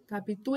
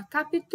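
First: Said in the usual way. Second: Capitu with TU held long; called out, final syllable stretched. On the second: Shown as a demonstration. Teacher proves the last syllable is tonic, calling Capitu with a long TU. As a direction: call out Capitu as if summoning her, dragging the last syllable. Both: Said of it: "como se eu estivesse chamando a pessoa".

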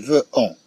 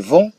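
First: فو أون broken apart as "ve" then "on"; split into two sounds. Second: فون as one nasal French "von"; one syllable. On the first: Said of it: "لا نقول فو أون". (نطق فو أون مقطعين منفصلين) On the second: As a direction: say فون in a single beat. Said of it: "أنها تنطق دفعة واحدة". (نطق فون دفعة واحدة) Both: Shown as a demonstration.

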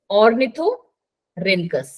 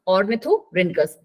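First: Ornithorhynchus broken into slow separate syllables; teacher spells out ornithorhynchus slowly for students. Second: Ornithorhynchus said slowly but joined up; slow clear name. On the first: Teacher breaks the name into syllables for the class. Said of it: "देखो कि ma'am कहाँ से break करती है". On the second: Teacher repeats the name smoothly for students. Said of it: "हो गया एक बार में". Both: Shown as a demonstration.

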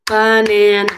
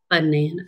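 First: "Banana" broken into even, separate beats for clapping; syllable by syllable. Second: Said in the usual way. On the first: Shown as a demonstration. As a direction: chant "Banana" one syllable per clap, louder. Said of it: "how many syllables are in the word". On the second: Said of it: "Let's see how many syllables".

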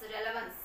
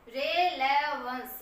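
First: Said in the usual way. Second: Slow demo of relevance. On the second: Shown as a demonstration. Teacher spelling out a word slowly for students. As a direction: stretch relevance out slowly, syllable by syllable. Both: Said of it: "ये relevance होता है".

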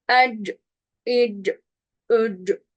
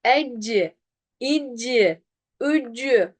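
First: "Ecci, icci, üccü" with the final vowel dropped; cut off at the consonant. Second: "Ecci, icci, üccü" with a clear vowel after each c; wrongly adding a vowel. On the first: Teacher models correct sukun, "Ecci, icci, üccü" cut short. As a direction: stop each of "Ecci, icci, üccü" dead on the c. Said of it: "Kestim orada". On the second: Teacher shows the error, "Ecci, icci, üccü" with added vowels. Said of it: "ötre vermiş gibi okudum". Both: Shown as a demonstration.

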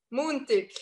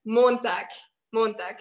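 First: Montag said in dialect, like MOON-tig. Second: Montag said the standard way, MON-tahk; standard German Montag. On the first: Showing Germans how her region says Montag, in dialect. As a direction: say Montag the local way, vowels shifted to moon-tig. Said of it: "But we say". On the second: Showing viewers the standard German Montag, said carefully. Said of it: "It's like". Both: Shown as a demonstration.

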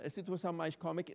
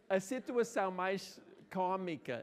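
First: Quicker repeat. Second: Slow emphatic start. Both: Shown as a demonstration.

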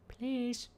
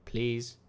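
First: Tiny, high, soft plea; pleading. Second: Said in the usual way. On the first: Pretend. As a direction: beg in a small high voice. Begging the fish.

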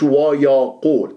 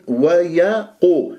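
First: ويقول with the vowels left thin and light; the mistake: ويقول without heaviness; ويقول read thin, as not to do; wrong thin vowels. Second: ويقو with the waw and ya thickened beside the heavy qaf, very slow; ويقو drawn out, full and heavy; heavy vowels. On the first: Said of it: "مش". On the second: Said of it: "لأنها جاورت القاف المفخم". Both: Shown as a demonstration.

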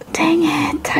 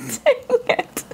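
First: Whispered "Dang it" under breath. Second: Laughing, whiny "Dang it"; half-laughing mock cry of "Dang it"; playful whimper of frustration; mock wail. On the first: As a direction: hush it like a private curse. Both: Real, not acted. Misjudged a contestant.

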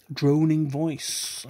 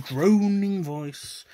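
First: Slow, louder mock droning; mock drone. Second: Drawn-out mock droning, pitched up and louder; mock drone. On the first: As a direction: drag the phrase out like a bored drone. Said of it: "my droning voice". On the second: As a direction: stretch the words out like a parody of a dull voice. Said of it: "my boring, droning voice". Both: Shown as a demonstration.

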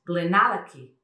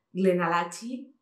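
First: GLENALLACHIE as "glen-AL-a-kee"; louder, slow, with a k sound in GLENALLACHIE; correct pronunciation. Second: GLENALLACHIE as "glen-a-LA-chee", ch as in "church"; slow, rising "glen-a-LA-chee?"; read as spelt. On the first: Shown as a demonstration. Teacher corrects it, "glen-AL-a-kee". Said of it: "es Glenallachie". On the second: Retold or imitated. Showing how many read it, "glen-a-LA-chee". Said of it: "que leeréis mucho".

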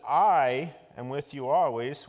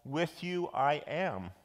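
First: "I" hit loud and held long at the start; slow line led by an emphatic "I"; stress on I. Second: "With you" first, slow and measured, "I am" trailing; slow, deliberate "With you", falling on "I am"; Yoda-like word order. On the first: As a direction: punch a long, loud "I", then carry on. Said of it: "It's just a different em-, emphasis". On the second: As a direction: set out "With you I am" slowly, without punching the "I". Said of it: "whereas Yoda might have said". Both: Shown as a demonstration.

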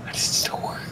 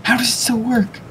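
First: Whispered to himself; whispering. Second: Surprised. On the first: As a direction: breathe it in quiet disbelief. Same question repeated to self. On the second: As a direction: ask it in disbelief. Bewildered question asked aloud. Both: Real, not acted.

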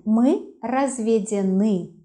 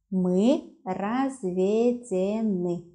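First: Said in the usual way. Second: Мы разведены very slowly, each syllable separate; slow, measured dictation of разведены. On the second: Shown as a demonstration. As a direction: break разведены into drawn-out syllables for a learner. Teacher repeats word syllable by syllable.

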